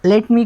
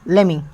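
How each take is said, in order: First: Both words are said fully and separately. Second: The words blend into one short word.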